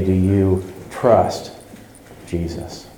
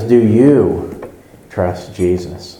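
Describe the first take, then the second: First: TRUST set apart and weighted, then a pause before Jesus; slow question landing on the word trust; stress on TRUST. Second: YOU drawn out and leaned on in "Do you trust Jesus"; slow question, punch the word YOU; stress on YOU. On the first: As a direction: lean on TRUST, let Jesus drop softly. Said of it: "If you change the emphasis on that". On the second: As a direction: make it personal by stretching YOU. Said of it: "you can emphasize one of the three". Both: Shown as a demonstration.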